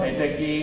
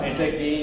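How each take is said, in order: The two takes are said the same way.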